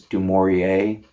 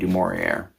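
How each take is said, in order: First: The final R is soft, not hard. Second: The final R is a hard American R. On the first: The speaker calls it right. "It's not supposed to have a hard R" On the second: The speaker calls it wrong. "I'm just going to keep saying du Maurier"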